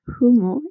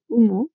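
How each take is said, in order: First: The word begins with an audible breathy h sound. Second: The word begins directly with the vowel sound. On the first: "The aspiration of the initial H" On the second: "instead of"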